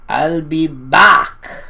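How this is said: It is said with a heavy foreign accent. "his heavy accent saying"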